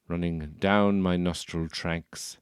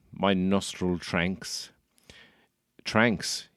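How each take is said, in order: First: Tracks said as "tranks" with a nasal n. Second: Slow "tranks" with an inserted n; tranks for tracks. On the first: Posh persona says "tranks" instead of tracks. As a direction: say "tranks" with a slow posh English drawl. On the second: Posh persona repeats "tranks" when asked. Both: Shown as a demonstration. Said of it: "We have tranks instead of tracks".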